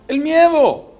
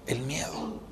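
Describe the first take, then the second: First: Higher, louder punchline answer; emphatic answer. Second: "El miedo" breathed out unvoiced, much softer; whispered answer. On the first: Preacher answering what sank Peter, raised and louder. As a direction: hit it hard like the verdict. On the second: Preacher repeating to the brothers what sinks us, in a whisper. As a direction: drop to a whisper to let it sink in. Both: Real, not acted.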